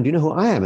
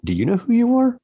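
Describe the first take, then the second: First: Raised-pitch retold question; questioning sister. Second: Very high, mock-confidential punchline; conspiratorial mother. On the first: Sister asking mom one more time, high and questioning. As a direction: imitate a daughter checking, clear and high. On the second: Mother turning the question on her daughters, mock-conspiratorial and high. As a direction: imitate mom leaning in, voice pitched right up. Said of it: "conspiratorially to make sure no one can hear".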